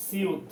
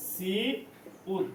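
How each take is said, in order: First: Said in the usual way. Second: "সিউত" very slow and soft, split into সি, then উত; syllable by syllable. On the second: Shown as a demonstration. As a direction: draw out the first syllable of "সিউত", pause, then উত. Teacher breaks up letter name. ("সিউত" খুব ধীরে ভেঙে, সি... উত)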